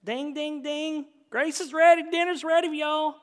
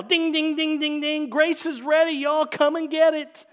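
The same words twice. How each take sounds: First: High, hollered Southern twang; stronger Southern accent. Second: High, very loud porch holler; Southern dinner call. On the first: Shown as a demonstration. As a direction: lay the Southern accent on thicker. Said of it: "with a little more accent". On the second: Acted. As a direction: call the whole family in to supper. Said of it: "He rings the dinner bell".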